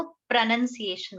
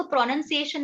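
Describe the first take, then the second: First: "प्रोनंसिएशन" with a short, reduced "pruh" first syllable; correct pronunciation. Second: "प्रोनंसिएशन" with a full "pro" first syllable; wrong pronunciation. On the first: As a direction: say "प्रोनंसिएशन" as pruh-nun-see-AY-shun. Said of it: "इसको प्रोनंसिएशन बोलेंगे". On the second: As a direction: say "प्रोनंसिएशन" starting on a clear, rounded "pro". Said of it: "नहीं बोलेंगे". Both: Shown as a demonstration.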